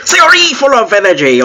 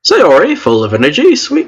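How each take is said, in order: First: High, hammed-up fake Asian accent; attempted Asian accent. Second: Badly faked Asian accent, name pitched up; attempted Asian accent. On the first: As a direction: overdo a clumsy Asian accent. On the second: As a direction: try a clumsy Asian accent. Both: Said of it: "what Asian accents sound like".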